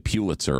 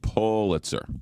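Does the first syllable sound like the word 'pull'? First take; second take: no; yes. First: The first syllable does not sound like 'pull'. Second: The first syllable sounds like the word 'pull'. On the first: The speaker calls it wrong. "people say Pulitzer all the time" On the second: The speaker calls it right. "It's pull, as in pull you in"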